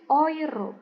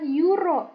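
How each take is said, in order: First: The first vowels are said together as oy. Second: The first vowels are said separately as eh-oo. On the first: The speaker calls it right. "E U, dibacanya adalah O I, oi" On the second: The speaker calls it wrong. "bukan euro"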